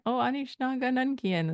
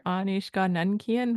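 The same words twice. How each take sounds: First: Higher-pitched, casual question; lightly chatty, raised pitch; casual and curious. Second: Neutral, slightly formal question; measured, matter-of-fact delivery; more formal. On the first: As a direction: ask it offhand, like checking in. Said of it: "that's kinda how it sounds to me". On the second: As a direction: ask it plainly and properly. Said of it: "It's a little bit more formal". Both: Shown as a demonstration.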